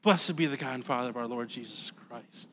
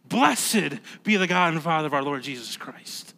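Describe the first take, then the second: First: Low, soft reading of Blessed; hushed, lower-pitched doxology; subdued recital. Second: Blessed punched out, then a pause; emphatic Blessed, the rest following more evenly; exclamatory emphasis. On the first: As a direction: say the praise quietly, Blessed unstressed. Repeats the verse, now subdued. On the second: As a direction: hit Blessed hard like an exclamation. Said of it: "exclamation point". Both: Shown as a demonstration.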